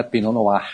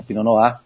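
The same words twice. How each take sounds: First: Pinot Noir with the final r sounded; wrong pronunciation. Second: Pinot Noir with a nearly silent r; correct French pronunciation. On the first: Expert shows listeners the mistake, sounding Noir's r. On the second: Expert corrects for listeners, Noir without the r. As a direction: end Pinot Noir on an open "nu-á". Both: Shown as a demonstration. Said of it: "você não pronuncia o R final".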